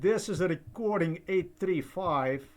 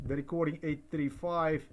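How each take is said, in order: First: Raised, announcer-like opening of the tape; announcing the recording. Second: Said in the usual way. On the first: Real, not acted. Speaking into the recorder to start the tape, announcing it. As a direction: state the recording number out loud for the record.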